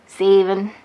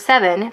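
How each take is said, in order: First: It is said in a southern US accent. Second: It is said in a standard accent.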